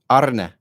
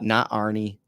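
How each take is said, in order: First: The name ends in a short 'uh' vowel. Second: The name ends in an 'ee' vowel. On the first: The speaker calls it right. "his first name is pronounced Arne" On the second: The speaker calls it wrong. "it's not Arnie"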